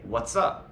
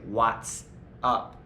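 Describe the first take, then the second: First: The vowel in 'what' is a short 'uh'. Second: The vowel in 'what' is an open 'ah'. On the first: The speaker calls it right. "We say" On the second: The speaker calls it wrong. "We don't say"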